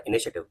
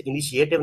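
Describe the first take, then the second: First: इनिशिएटिव with a single "she" syllable, "i-ni-she-tiv"; correct pronunciation. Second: इनिशिएटिव with an extra vowel, "i-ni-shee-AY-tiv"; wrong pronunciation. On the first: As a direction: run "shi-e" together as one short syllable in इनिशिएटिव. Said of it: "इसे पढ़ना इनिशिएटिव". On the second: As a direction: split "shi-e" into two syllables in इनिशिएटिव, higher and louder. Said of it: "इसे इनिशिएटिव नहीं पढ़ना". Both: Shown as a demonstration.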